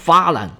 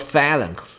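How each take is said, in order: First: The word ends without a final x sound. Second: The word ends with a final x sound. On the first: This is how the word is said in Greek. "在希腊语里面的那个x 后边不发音，读作phalan 就对了" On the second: This is how the word is said in English. "英语应该读作phalanx"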